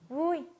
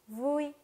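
First: It is said in a happy, joyful way. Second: It is said in a plain, neutral way.

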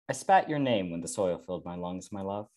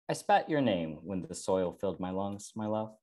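First: It is read at a faster pace. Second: It is read at a slower pace.

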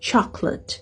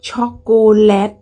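First: A middle syllable is dropped, so it's shorter. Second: Every syllable is pronounced separately and fully. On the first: The speaker calls it right. "บ่แม่นเด้มันออกเสียงว่า" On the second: The speaker calls it wrong. "ภาษาไทยเราจะออกเสียงทุกพยางค์"

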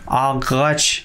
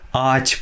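First: The g sound is pronounced between the vowels. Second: The g is silent and the first vowel is lengthened. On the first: The speaker calls it wrong. "ағач деп оқымайсыздар" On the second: The speaker calls it right. "ач болады"

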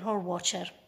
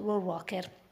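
First: The name is pronounced the English way. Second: The name is read letter by letter, Italian-style. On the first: "ho cercato la pronuncia in inglese e" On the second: "ve lo dico come è scritto"

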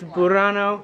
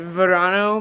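First: The name begins with a B sound. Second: The name begins with a V sound. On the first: The speaker calls it right. "but really it's Burano" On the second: The speaker calls it wrong. "I've been pronouncing it Verano"

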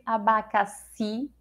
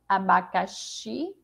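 First: The x sounds like an s. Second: The x sounds like sh. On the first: "ou é o som do si" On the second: "É o som do CH"

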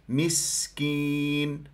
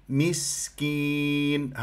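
Both takes have the same delivery.

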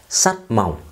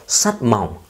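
Both takes have the same delivery.

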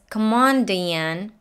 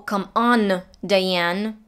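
First: The N of 'on' is held and flows straight into 'Diane'. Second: The N of 'on' is released separately before 'Diane'. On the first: The speaker calls it right. "She says" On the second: The speaker calls it wrong. "She doesn't say"

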